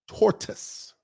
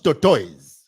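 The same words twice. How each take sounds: First: Tortoise is said with its standard pronunciation. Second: Tortoise is said with the common local mispronunciation. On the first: The speaker calls it right. "This is tortoise" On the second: The speaker calls it wrong. "It's not tortoise"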